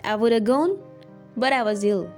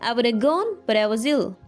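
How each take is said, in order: First: 'Would have' is reduced to a single word, 'woulda'. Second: The same.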